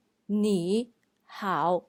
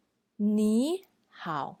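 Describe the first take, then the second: First: "你好" with both words in third tone, slowly; wrong nǐ hǎo. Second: "你好" with 你 rising as tone two, then 好 dipping, slowly; correct ní hǎo. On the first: Teacher shows the mistake learners make, slow. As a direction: say "你好" the wrong way, two dipping tones. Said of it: "we don't say". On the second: Teacher shows the correct tone change, slow. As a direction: say "你好" the right way, first word rising. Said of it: "we say". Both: Shown as a demonstration.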